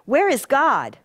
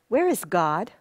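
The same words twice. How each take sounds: First: It is asked in a sterner tone. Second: It is asked in a stern tone.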